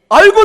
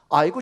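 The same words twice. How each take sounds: First: It sounds warm and delighted. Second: It sounds annoyed and fed up.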